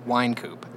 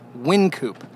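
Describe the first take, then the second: First: The first syllable sounds like 'wine'. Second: The first syllable sounds like 'win'. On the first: It refers to the street and the man. "If you're talking about the street, it's named after the man" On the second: It refers to the brewery. "But if you're talking about the brewery, it's Wine Coop"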